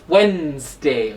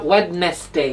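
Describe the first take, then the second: First: The middle D sound is silent. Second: The middle D sound is pronounced. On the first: The speaker calls it right. "the D here is silent" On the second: The speaker calls it wrong. "It's not Wednesday"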